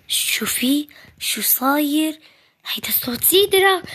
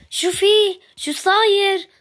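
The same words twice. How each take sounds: First: Excited whisper. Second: Drawn-out, higher and louder excited call. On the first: Excited secret about visitor. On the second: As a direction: stretch it out, bursting with news. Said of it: "وليش صوتك طالع؟". (نداء متحمس عالٍ وبطيء) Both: Acted.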